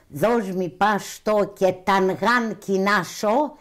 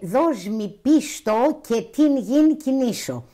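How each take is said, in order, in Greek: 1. Χρησιμοποιεί δωρικές μορφές με μακρά φωνήεντα α. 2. Χρησιμοποιεί ιωνικές μορφές με φωνήεντα ε. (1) "μιλούσε δωρικά" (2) "να το πούμε στην Ιωνική διάλεκτο"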